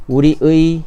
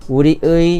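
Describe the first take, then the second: First: The final vowel is a full 'ui' sound. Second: The final vowel is a full 'ui' sound.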